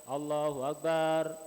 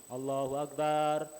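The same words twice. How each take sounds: The two takes are said the same way.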